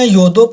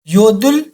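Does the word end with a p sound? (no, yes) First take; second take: yes; no. First: It ends with an audible p sound. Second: It ends in an l sound with no p. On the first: The speaker calls it wrong. "इसे योदलुप या योदुप नहीं पढ़ना" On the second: The speaker calls it right. "ये साइलेंट होगा"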